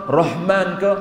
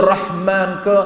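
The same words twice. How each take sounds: Both takes have the same delivery.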